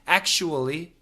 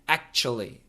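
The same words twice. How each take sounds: First: It is said in four full syllables. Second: It is said in three syllables. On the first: "Get a W there" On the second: "most Americans just say it in three syllables"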